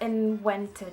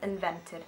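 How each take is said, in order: First: The v is said like an English w. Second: The v is said as a hard English v. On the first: The speaker calls it wrong. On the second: The speaker calls it right.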